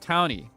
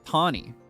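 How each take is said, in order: First: The first syllable sounds like the word town. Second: The name is said in a British-sounding way. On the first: The name means a person who lives in a town. The speaker calls it right. "a person that lives in the town" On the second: The name comes from a British-themed region. The speaker calls it wrong. "she's British. So they'd probably pronounce the name like Tawny"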